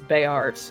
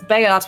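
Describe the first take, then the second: First: The name is said in an American accent. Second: The name is said in a British accent. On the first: "when it's American" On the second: "when you pronounce it with a British accent"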